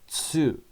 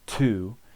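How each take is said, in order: First: The syllable starts with a hissing ts sound. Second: The syllable starts with a plain t sound. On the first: The speaker calls it right. "like you're you're blowing a little wind out" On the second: The speaker calls it wrong. "it's not two"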